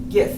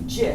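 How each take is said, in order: First: The word starts with a hard G sound. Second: The word starts with a soft G sound. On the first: The speaker calls it wrong. "Graphics, of course, is a hard G, so you think it would be GIF" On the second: The speaker calls it right. "he said it's actually pronounced GIF"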